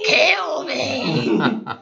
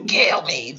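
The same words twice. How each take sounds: First: It imitates the woman in Aliens Four. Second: It is said in a put-on bulldog voice.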